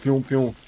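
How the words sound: It is said in a deep, steady voice. "like more deep voiced and constant pewing"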